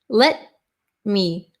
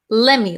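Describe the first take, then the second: First: Both words are said fully and separately. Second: The words blend into one reduced word.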